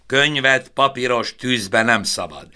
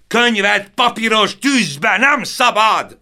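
First: Firm, dogged insistence; stubborn repeat. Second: Much higher, louder, slower desperate yell; full-throated roar of despair. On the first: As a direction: repeat it stubbornly, not yet shouting. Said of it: "ismételte ő konokul". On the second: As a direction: bellow it over the fire, NEM hit hardest. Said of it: "ordította Stern István harmadszor is". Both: A narrator's reading.

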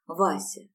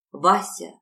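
First: Said in the usual way. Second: Louder, pleading exclamation; pleading cry. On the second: Acted. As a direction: beg him, crying out his name. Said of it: "умоляюще воскликнула Роза".

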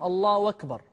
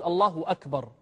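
First: الله أكبر said as Allahu wakbar; hamza turned to waw. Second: Said in the usual way. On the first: Shown as a demonstration. Teacher showing a common variant takbir, hamza as waw. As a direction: glide into أكبر with a w in place of the hamza. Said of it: "يقلب الهمزة واوا". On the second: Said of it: "بلا قلب".

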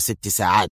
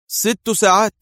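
First: Said in the usual way. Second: High, louder startled question on "ساعات"; can't believe the number; surprised. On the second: A narrator's reading. Adham surprised by the six-hour deadline. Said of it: "ارتفع حاجبا أدهم في دهشة".

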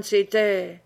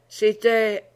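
First: Said in the usual way. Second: Put-on a mild drunken hiccup breaking into "c'était"; avec un hoquet. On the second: A narrator's reading. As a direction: hiccup lightly on "c'était" like a tipsy old soldier. (un léger hoquet d'ivrogne sur « c'était ») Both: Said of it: "avec un hoquet".

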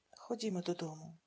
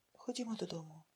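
First: Softer, weary sigh. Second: Soft, careful asking; gentle plea. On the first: Father sighing as he gives in to his daughter. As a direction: give in with a sigh. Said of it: "зітхнув він". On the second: Daughter softly asking her father to come home. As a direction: coax him home gently. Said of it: "попросила вона обережно". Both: A narrator's reading.

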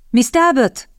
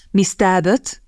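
First: Higher-pitched call, falling at the end; calling her name. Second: Mildly solemn address, kept even and level. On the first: Captain calls Miss Talbot across the windy garden, higher call. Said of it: "halkan szólongatja őt". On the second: Pemberton starts his proposal to Miss Talbot, solemn. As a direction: begin a formal address with understated gravity. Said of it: "kezdte Pemberton ünnepélyes hangon". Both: A narrator's reading.

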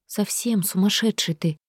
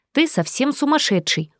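First: Said in the usual way. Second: Ты said higher, up front; correcting word order with emphasis on ты; stress on ты. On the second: A narrator's reading. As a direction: lead with a teasing ты. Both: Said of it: "не преминул поправить меня Малкир".

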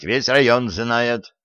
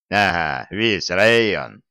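First: Said in the usual way. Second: Slow, sneering echo of "весь район"; mocking mimicry. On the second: A narrator's reading. Soldier mockingly parrots grandfather's "весь район". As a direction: parrot "весь район" back to mock him. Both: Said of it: "передразнил я".

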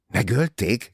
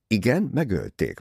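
First: Startled, raised questioning cry; shocked exclamation. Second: Said in the usual way. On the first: A narrator's reading. Jacqueline hearing of the murder, shocked cry. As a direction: exclaim it in disbelief. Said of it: "kiáltotta Jacqueline".

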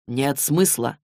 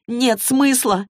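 First: Lower, slow and solemn; a grave ruling on "Нет смысла"; weighty pronouncement. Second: Clary yells "Нет смысла" back at Magnus; yelling. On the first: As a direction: pronounce it like a verdict. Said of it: "наконец изрёк он". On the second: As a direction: throw the words back at him in outrage. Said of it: "заорала Клэри". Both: A narrator's reading.

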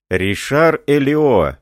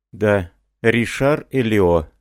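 First: Higher, louder and slow, with a voice set apart from the narration; sudden alarmed outcry on the name; shocked exclamation. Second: Said in the usual way. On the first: A narrator's reading. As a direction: cry out the name Ришар Элио in alarm. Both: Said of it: "воскликнул офицер".

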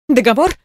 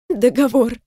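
First: Said in the usual way. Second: A touch of crying on Договор; sobbed. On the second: Acted. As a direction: choke Договор out through a sob. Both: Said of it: "всхлипнула Каролина".

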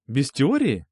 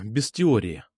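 First: Mock-incredulous echo, rising. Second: Said in the usual way. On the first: Boy echoes her word in mock disbelief. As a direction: echo it back as if surprised. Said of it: "Хочешь сочинение сразу?".

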